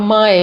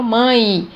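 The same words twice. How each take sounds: First: Mãe with the final E said as an open E; wrong pronunciation. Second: Mãe with the final E gliding to an I sound; correct pronunciation. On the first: Teacher showing how it is not said, mãe ending in open E. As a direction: say mãe as "mã-É", as spelt. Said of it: "eu não falo mãe". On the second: Teacher showing the semivowel, mãe ending in I sound. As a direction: say mãe as "mãi". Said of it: "eu falo mãe". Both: Shown as a demonstration.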